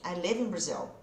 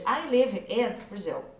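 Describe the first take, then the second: First: Live and in run together as one sound. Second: Live and in are said as separate words. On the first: The speaker calls it right. "ele já vai juntar com outra coisa que vem antes" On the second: The speaker calls it wrong. "Ao invés de"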